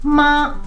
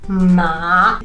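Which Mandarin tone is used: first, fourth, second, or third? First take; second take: first; third. First: The pitch stays high and level. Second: The pitch dips low, then rises. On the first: It means mother. "in a flat tone, the first tone means mummy" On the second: It means horse. "the third tone"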